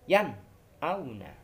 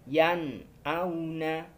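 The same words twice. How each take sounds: First: There is a break between the two words. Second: The two words flow together without a break. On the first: The speaker calls it wrong. "kita membacanya dengan cara terputus" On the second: The speaker calls it right. "Harus bersambung"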